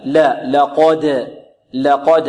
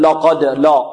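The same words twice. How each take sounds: First: Slow لقد with thin ل and heavy ق; light lam. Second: لقد with a thickened ل; wrong, heavy lam. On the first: Teacher drills the contrast of letters, light lam. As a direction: keep لا light, then thicken the ق of لقد. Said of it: "ورقق اللام". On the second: Teacher shows what not to say, heavy lam. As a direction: darken the لا at the start of لقد. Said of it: "البعض ربما يفخم اللام". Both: Shown as a demonstration.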